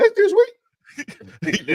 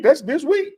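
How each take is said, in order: First: Very high, drawn-out and slow; mock-excited falsetto repeat; squeaky high excited. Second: High and louder, rising; excited high. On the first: Shown as a demonstration. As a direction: stretch That's this week way up high. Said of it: "my voice got high 'cause I was excited". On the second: Real, not acted. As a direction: raise your voice with excitement. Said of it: "my voice got high".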